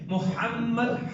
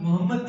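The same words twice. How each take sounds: First: The h sound comes from deep in the throat. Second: The h sound is plain and light. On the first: The speaker calls it right. "हा अंदर से, गले के अंदर से" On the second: The speaker calls it wrong. "मोहम्मद नहीं है"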